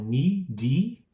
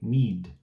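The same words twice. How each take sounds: First: An extra vowel sound follows the final d. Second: The word stops on a soft final d. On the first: The speaker calls it wrong. "eu não falo need" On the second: The speaker calls it right. "é para no D"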